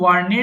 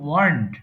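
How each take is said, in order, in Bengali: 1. শব্দটি দুটি সিলেবলে উচ্চারিত হয়। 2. শব্দটি একটি সিলেবলে উচ্চারিত হয়। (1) "অনেকে ভুল করে ওয়ার্নেড বলে ফেলে" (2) "সো এটা হবে ওয়ার্নড"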